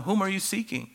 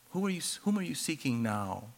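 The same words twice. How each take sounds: First: Asked high and searching, a touch softer; first asking, high and searching; higher probing question. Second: Hushed, gentle repeat of the question; second asking, hushed and gentle; soft second asking. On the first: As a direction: raise the pitch on the question, probing. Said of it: "the inflection of his voice". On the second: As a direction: drop almost to a hush, tender. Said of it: "he goes, um". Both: Retold or imitated.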